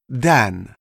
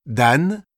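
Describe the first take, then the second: First: "Dan" as an English name, falling; English pronunciation. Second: "Dan" as said in French, N sounded; French pronunciation. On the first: Teacher giving vocabulary, "Dan" in English pronunciation. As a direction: say "Dan" the English way, short A and sounded N. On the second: Teacher translating the name, "Dan" in French pronunciation. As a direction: say "Dan" with a French A, leading on to Daniel. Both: Shown as a demonstration. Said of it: "Quelques mots de vocabulaire".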